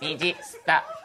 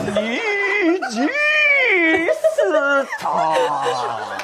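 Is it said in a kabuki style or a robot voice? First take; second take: robot voice; kabuki style. First: It is said in a stiff robot voice. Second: It is said in a dramatic kabuki style.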